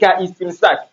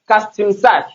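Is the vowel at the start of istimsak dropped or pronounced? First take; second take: pronounced; dropped. First: The initial vowel is pronounced as its own syllable. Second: The words run together without the initial vowel. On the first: The speaker calls it wrong. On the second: The speaker calls it right.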